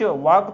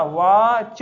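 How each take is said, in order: First: "वाक" ending in a k sound; wrong k ending. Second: "वाच" loud, long vowel, then a separate ch; correct ch ending. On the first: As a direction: say "वाक" with the mistaken k. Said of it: "वाक तो पढ़ते नहीं". ("वाक" के अंत में क की आवाज़) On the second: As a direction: sound out "वाच" firmly, ending on ch. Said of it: "सीएच को चा". ("वाच" ज़ोर से, अंत में च) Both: Shown as a demonstration.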